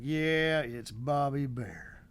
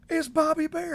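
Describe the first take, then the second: First: Slow, flat "big whoop" shrug; unimpressed wife. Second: Much higher and louder gasp of recognition; starstruck excitement. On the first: Wife shrugging off her husband's starstruck moment, unimpressed. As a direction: drag it out like it's no big deal. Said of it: "Like, big whoop". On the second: Fan spotting a country star at the store, excited blurt. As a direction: blurt it out, thrilled to meet a star. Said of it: "and I'm like". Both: Retold or imitated.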